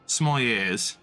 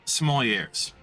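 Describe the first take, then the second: First: The final R sound is silent. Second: The final R sound is pronounced. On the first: "There you go" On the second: "but you pronounce the R"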